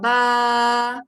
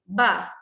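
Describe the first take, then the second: First: The vowel is held long. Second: The vowel is held short. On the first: The speaker calls it right. "Sekarang cuba baca panjang" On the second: The speaker calls it wrong. "cuba baca pendek"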